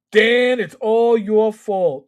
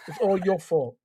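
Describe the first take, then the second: First: Said in the usual way. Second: New York accent. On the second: Shown as a demonstration. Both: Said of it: "in my best New York accent".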